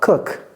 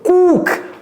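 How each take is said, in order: First: The vowel is kept short. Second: The vowel is drawn out long. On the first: The speaker calls it right. "Non, cook" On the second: The speaker calls it wrong. "ça c'est trop long"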